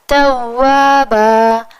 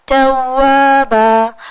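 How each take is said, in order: Both takes have the same delivery.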